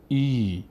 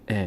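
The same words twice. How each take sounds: First: ای held as a long "eee". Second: ا as a short "e"; short kasra. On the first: Teacher showing alef followed by ye, long ee on ای. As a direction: stretch ای out. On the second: Teacher showing what it no longer is, short e on ا. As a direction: say ا without lengthening it. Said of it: "دیگه نمیشه ا". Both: Shown as a demonstration.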